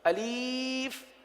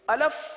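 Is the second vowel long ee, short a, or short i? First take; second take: long ee; short a. First: The second vowel is a long 'ee' sound. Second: The second vowel is a short 'a' sound. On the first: "अलीफ पढ़ना, ये गलत है।" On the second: "अब इसको अलफ पढ़ना ... ये गलत है।"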